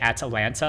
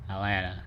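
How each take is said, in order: First: Every T sound in the word is clearly pronounced. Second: The T sounds in the word are dropped. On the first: "you pronounce every single T" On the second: "I don't say any of the T's"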